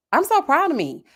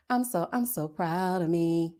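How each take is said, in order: First: Proud and excited. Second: Soft, slow repeat to herself; quiet and proud. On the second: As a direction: say it softly, savoring it. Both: Real, not acted.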